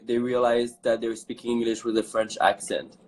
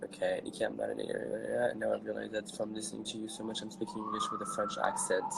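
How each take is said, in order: First: Said in the usual way. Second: Low, very soft quick read; reading to oneself. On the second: Real, not acted. Host privately reading a viewer's comment, quiet and quick. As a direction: skim it under your breath.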